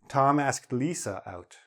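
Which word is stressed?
Lisa. The word Lisa carries the main stress. This person, not another, was the one asked. "Not Jane, not Kathy, not anybody else"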